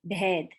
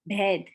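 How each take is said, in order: Both takes have the same delivery.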